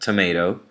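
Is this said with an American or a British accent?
American. It is said with an American accent. "an American would say tomato"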